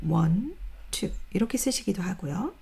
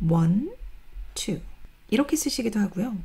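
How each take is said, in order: The two takes are said the same way.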